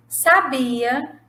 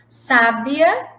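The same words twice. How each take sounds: First: Sabia with the middle syllable BI stressed. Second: Sábia with the first syllable SÁ stressed. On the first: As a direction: say sabia as the verb, sa-BI-a. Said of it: "sem o acento". (sabia com a sílaba BI tônica) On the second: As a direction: say sábia as SÁ-bia, set apart. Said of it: "com o acento agudo eu tenho sábia". (sábia com a primeira sílaba tônica) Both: Shown as a demonstration.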